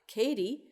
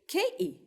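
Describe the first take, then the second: First: The middle t is a quick flap. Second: The middle t is a glottal stop. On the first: This is the Canadian and American form. "it's pronounced with a flap" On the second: This is the new form spreading among young people. "glottal stop"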